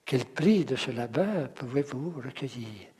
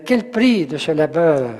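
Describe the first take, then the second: First: Softer rhythmic reading through "prix", "labeur", "recueillir"; light weight on each group ending, "prix", "labeur", "vous", "recueillir"; stress on last syllables. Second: Louder, weight on "prix" and "labeur"; rhythmic reading. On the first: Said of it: "l'accent sur la dernière syllabe sonore". (lecture douce, accent final sur « prix », « labeur », « recueillir ») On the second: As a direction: lean on "prix", then the end of "labeur". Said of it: "lire comment ça". (lecture rythmée, accent fort sur « prix » et « labeur ») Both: Shown as a demonstration.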